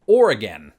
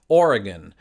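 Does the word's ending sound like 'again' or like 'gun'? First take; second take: again; gun. First: The word sounds like 'or' plus 'again'. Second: The word ends with a short 'gun' sound. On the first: "merging the two words or and again" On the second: "your pronunciation was closest to mine"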